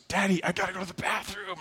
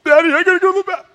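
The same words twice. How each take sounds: First: Put-on soft, high, quick little-boy voice; small pretend child voice, hurried; voicing young son. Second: Put-on very high, loud, rapid-fire kid squeal; frantic mock-child voice, racing through the words; voicing other son. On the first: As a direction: imitate a kid quietly telling dad he has to go. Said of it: "my son, Elijah, goes". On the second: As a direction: imitate a little boy urgently yelling for dad. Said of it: "My other son".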